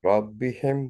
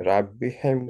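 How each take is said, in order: No difference in how they are said.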